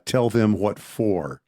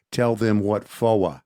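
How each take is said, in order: First: Said in the usual way. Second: Slow Southern drawl, FOR stretched to "fo-uh"; fake movie Texas accent. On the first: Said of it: "Texas accent". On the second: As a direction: imitate a bad Hollywood Texan, dropping the R in FOR. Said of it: "they have the character say".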